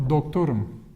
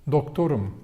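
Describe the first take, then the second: No difference in how they are said.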